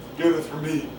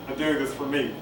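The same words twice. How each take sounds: The two takes are said the same way.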